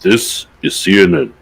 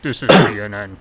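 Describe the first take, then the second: First: Lightly voiced CNN announcer; imitating a news anchor; parody news anchor. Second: Deep, loud news anchor voice; mock CNN announcer; parody news anchor. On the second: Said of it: "I gotta clear my throat so I have a deeper news anchor voice".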